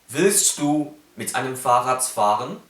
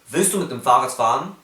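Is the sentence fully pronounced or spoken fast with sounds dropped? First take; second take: fully pronounced; sounds dropped. First: Every sound is pronounced carefully and fully. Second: It is fast with several sounds dropped. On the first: "Wenn man keinen Laut verschluckt, spricht man so aus" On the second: "wenn man das schnell spricht, verschluckt man schon einige Laute"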